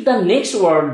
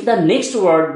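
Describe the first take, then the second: No difference in how they are said.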